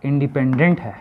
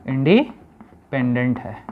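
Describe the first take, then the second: First: Said in the usual way. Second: independent split by a pause midway; slow, broken-up repeat. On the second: Shown as a demonstration. Teacher repeating the term for pupils, slow and split. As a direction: break independent in two, slowly.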